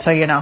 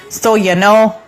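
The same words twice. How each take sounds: First: It is said in a plain, neutral accent. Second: It is said in an exaggerated northern Minnesota accent. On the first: This is how people there really talk. The speaker calls it right. "I just said so you know" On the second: This is the stereotype shown on TV. The speaker calls it wrong. "I didn't say, so you know. Like, it's it's not like that"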